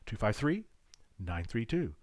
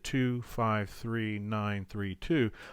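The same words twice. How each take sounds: First: The digits are split by a pause. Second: The digits run together without a pause.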